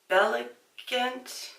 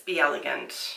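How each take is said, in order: First: The name is run together into three syllables. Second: The name is said as two words, four syllables. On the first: The speaker calls it wrong. "Belegant just doesn't sound right" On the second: The speaker calls it right. "I'm gonna guess it's Be Elegant"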